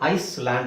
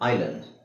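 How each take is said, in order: First: An s sound is heard in the middle. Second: No s sound is heard in the middle. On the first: The speaker calls it wrong. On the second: The speaker calls it right.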